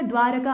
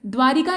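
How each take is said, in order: First: द्वारका said dwaa-ra-ka with a short a, no i; द्वारका with a light middle ra; correct pronunciation. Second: द्वारिका said dwaa-ri-ka with a clear i vowel; द्वारिका with the extra i in the middle; wrong pronunciation. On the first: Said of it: "द्वारका होता है". (द्वारका का सही उच्चारण, बीच में इ नहीं) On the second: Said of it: "द्वारिका नहीं होता है". (द्वारिका का गलत उच्चारण, बीच में इ के साथ) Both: Shown as a demonstration.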